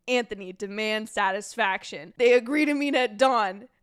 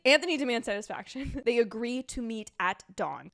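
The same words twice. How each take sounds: First: Loud musical chant, Hamilton style; theatrical sung-rap delivery; rap-song attempt. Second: Said in the usual way. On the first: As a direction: chant it rhythmically like a show tune. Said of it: "like, wrap all of these". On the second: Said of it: "So let me run you through them".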